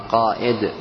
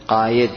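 First: The middle consonant is a glottal stop. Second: The middle consonant is a y sound. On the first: The speaker calls it right. "إنما قائد ... بالهمز كله" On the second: The speaker calls it wrong. "ولا تقل قايد"

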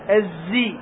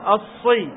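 First: The consonant is a clear z sound. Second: The consonant is a clear emphatic s sound. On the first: "ليست زاي الزي" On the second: "وليست صاد الصي"

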